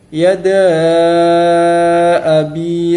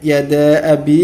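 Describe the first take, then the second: First: The vowel before abi is held long. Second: The vowel before abi is kept short. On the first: "jika kita membacanya dengan panjang" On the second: "dibaca dengan pendek, hanya dengan dua harokat saja"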